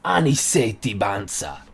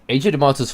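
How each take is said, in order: First: No 't' sound is heard in the surname. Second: A clear 't' sound is heard in the surname. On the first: The speaker calls it right. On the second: The speaker calls it wrong.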